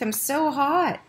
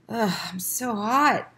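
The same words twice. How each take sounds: First: Put-on much higher, whimpering sick boy; a hot, miserable child pleading; feverish whine. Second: Put-on a sick boy mumbling slowly, half awake; feverish mumble. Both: A narrator's reading. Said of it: "mumbled Keith".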